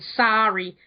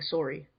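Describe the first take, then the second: First: It is said in an American accent. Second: It is said in a Canadian accent. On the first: "like a normal American" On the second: "a sort of more deeper Canadian way"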